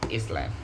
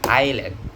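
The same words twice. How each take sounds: First: The s sound is clearly pronounced. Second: The s sound is left out. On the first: The speaker calls it wrong. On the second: The speaker calls it right. "silent s"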